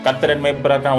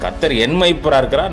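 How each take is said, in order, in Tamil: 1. இது சும்மா, அலட்சியமா சொல்லப்படுது. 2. இது ஆழமா, நிதானமா, உணர்வோடு சொல்லப்படுது. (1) "சும்மா கேஷுவலா சொல்லிட்டு போயிட்டே இருப்போம்" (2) "படிக்கிற விதம் ஒண்ணு இருக்குது"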